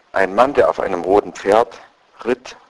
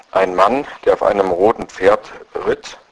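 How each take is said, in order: The two takes are said the same way.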